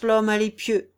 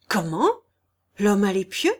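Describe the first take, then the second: First: Loud "l'homme à l'épieu" as a firm statement; confident recognition. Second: Loud "l'homme à l'épieu" with a sharp rise; alarmed question. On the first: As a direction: announce who it is, sure of it. Lord asserts recognition of Thibault. (affirmation forte et assurée) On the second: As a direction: echo the name back as a startled question. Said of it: "demanda le bailli en claquant des mâchoires". (question inquiète, ton montant) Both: A narrator's reading.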